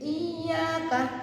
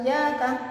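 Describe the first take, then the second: First: The y sound is doubled and held. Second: The y sound is single and short. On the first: The speaker calls it right. "iyyaka itu harus ditasdid iyanya" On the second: The speaker calls it wrong. "iyanya tidak ditasdid"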